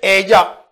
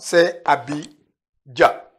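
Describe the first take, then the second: First: The word is said in a contracted form. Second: The word is said in its full form. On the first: "Mais souvent, dans le langage, l'oralité" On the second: "Le mot complet est là"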